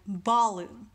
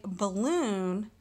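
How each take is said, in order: First: Balloon wrongly stressed on "ba"; stress on first syllable. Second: Balloon with the stress on "loon"; stress on second syllable. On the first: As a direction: punch the "ba" of "balloon" louder, let "loon" fall away. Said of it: "rather than balloon". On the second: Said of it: "putting emphasis in the second syllable". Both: Shown as a demonstration.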